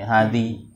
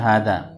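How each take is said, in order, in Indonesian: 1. Kata ini berakhir dengan vokal i. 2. Kata ini berakhir dengan vokal a. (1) "Tidak bisa dibaca" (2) "tetap dibaca hadza"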